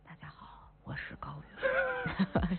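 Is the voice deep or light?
deep. It is said in a deeper, heavier voice.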